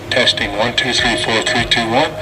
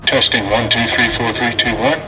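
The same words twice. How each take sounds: The two takes are said the same way.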